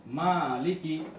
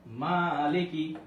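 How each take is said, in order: First: Said in the usual way. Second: মালিকি, stretching the মা by one alif beat; teacher slowly models মালিকি with a long মা. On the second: Shown as a demonstration. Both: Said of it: "খাড়া জবর আসলে এক আলিফ".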